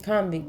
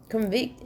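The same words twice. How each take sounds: First: Noun "convict", said CON-vict; full vowel and stress on "con" in "convict". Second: Verb "convict", said con-VICT; stress on VICT in convict. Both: Shown as a demonstration. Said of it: "they pronounce it different".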